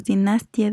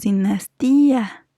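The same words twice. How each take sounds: First: "dinastía" as di-NAS-tia, stress on nas; "dinastía" stressed on NAS, ending in a short tia; wrong stress, diphthong. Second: "dinastía" with a long stressed í, di-nas-TÍ-a; "dinastía" leaning hard on TÍ; stressed í, hiatus. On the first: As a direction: say "dinastía" with ia glided and unstressed. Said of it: "no decimos dinastía". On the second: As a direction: say "dinastía" stretching the í apart from the a. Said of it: "decimos dinastía". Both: Shown as a demonstration.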